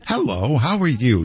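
It sounds warm and sweet, Utah-style.

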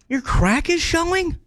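It sounds disappointed and let down.

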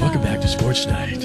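It is said in a hushed golf-announcer voice.

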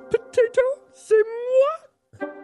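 It is said in a Miss Piggy voice.

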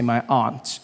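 It is said in the speaker's non-American accent.

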